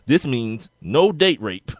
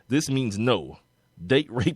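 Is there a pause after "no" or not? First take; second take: no pause; pause. First: It runs straight on with no pause after no. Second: There is a clear pause after no.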